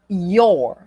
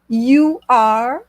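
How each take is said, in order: First: The words merge into one short syllable. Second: Both words are said separately in full.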